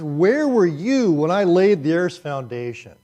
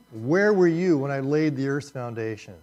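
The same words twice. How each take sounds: First: Loud, slow, commanding and high; God confronting Job from the storm; booming voice of God. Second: Booming read. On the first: Pretend. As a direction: thunder it down as God. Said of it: "let me be God". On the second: Shown as a demonstration. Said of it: "such a powerful statement".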